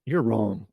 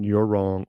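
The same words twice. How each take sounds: First: Blunt, falling verdict on You're; mock a curt dismissal; harsh retort. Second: Blunt, flat verdict hitting You're; a mock curt put-down; harsh retort. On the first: Demo of the harsh way to disagree, blunt. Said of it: "That's a lot less harsh than". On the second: Demo of a definitive disagreement, blunt and curt. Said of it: "Much better than". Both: Shown as a demonstration.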